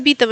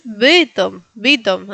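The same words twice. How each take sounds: First: Bytom as BEE-tom; wrong Latin I. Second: Bytom slowly, y between e and i; corrected Polish y. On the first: Someone correcting her, quoting the wrong i. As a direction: say Bytom with a Spanish i. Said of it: "No es Bytom". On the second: Someone correcting the learner, slow proper y. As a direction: stretch Bytom's first vowel toward BEH. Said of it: "es Bytom". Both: Retold or imitated.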